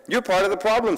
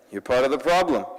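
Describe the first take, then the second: First: Problem said higher with a falling end; playful higher version; higher take. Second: Said in the usual way. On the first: Shown as a demonstration. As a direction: lift it up then let problem fall.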